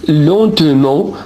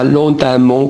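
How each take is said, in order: First: "lentement" with a schwa, len-te-ment; correct pronunciation. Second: "lentement" with an a sound, len-ta-ment; wrong pronunciation. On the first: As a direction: say the middle of "lentement" as "te", not "ta". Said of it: "On dit lentement avec un E". (« lentement » avec un e muet : len-te-ment) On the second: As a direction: turn the middle e of "lentement" into a. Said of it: "On ne dit pas lentement comme". (« lentement » prononcé avec un a : len-ta-ment) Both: Shown as a demonstration.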